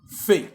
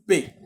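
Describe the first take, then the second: First: It is said as an 'f' sound. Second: It is said as a 'p' sound. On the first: The letter has no dot. "lorsqu'il n'y a pas les dagesh, on dit F" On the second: The letter carries a dot. "lorsqu'il y a les dagesh, on dit P"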